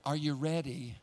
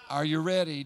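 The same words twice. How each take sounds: First: Said in the usual way. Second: Louder, pressing the question home; louder repeat. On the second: Shown as a demonstration. Preacher voicing the Lord asking the flock again, louder. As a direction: call it out to the room. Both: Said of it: "Are you ready? repeated".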